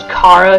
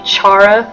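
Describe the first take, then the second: First: The name begins with a k sound. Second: The name begins with a ch sound. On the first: This is the technically correct Greek pronunciation. "Technically, it probably is pronounced Kara because it's Greek for joy" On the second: This is the speaker's personal preferred pronunciation. "if you want to know how I say them, I say Chara"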